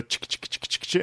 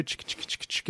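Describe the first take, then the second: First: Whispered clicking bee sounds, on request; bee impression. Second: Whispered clicking bee sounds; bee impression. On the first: Shown as a demonstration. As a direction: click out the bee noise again. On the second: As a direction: click out a little bee noise. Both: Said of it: "Can you do your bee impression again".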